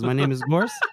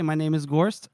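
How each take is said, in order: First: It is said in the speaker's normal voice. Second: It is said in a high, thin put-on voice.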